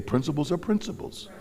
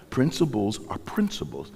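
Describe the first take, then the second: First: "Principles are principles." lifted high on "are", rising; call for the congregation to repeat. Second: Said in the usual way. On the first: Shown as a demonstration. Preacher leading the congregation in a call and response. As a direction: lead the church in saying "Principles are principles" back. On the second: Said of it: "Say, "Principles are principles".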